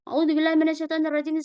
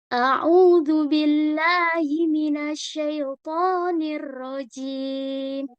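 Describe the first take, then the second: First: The phrase is recited quickly and rushed. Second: The phrase is recited slowly and carefully. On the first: The speaker calls it wrong. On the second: The speaker calls it right.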